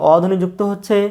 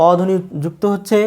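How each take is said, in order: Both takes have the same delivery.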